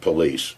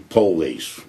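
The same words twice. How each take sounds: First: It is said with the standard pronunciation. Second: It is said with the Baltimore pronunciation. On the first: The speaker calls it wrong. "not police" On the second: The speaker calls it right. "in Baltimore, we say police"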